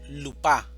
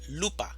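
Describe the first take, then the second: First: The stress is on the second syllable. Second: The stress is on the first syllable. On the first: The speaker calls it wrong. "No decimos lupa" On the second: The speaker calls it right. "Sílaba tónica. Lu"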